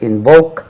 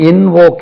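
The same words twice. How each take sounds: First: The stress is on the second syllable. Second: The stress is on the first syllable. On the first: The speaker calls it right. "Stress lies on the second syllable" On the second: The speaker calls it wrong. "Invoke இல்லை"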